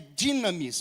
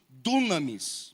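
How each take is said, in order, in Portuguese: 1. A primeira vogal soa como 'ee'. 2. A primeira vogal soa como 'oo'. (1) "a pronúncia é dinamis" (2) "mas a gente fala muito dunamis"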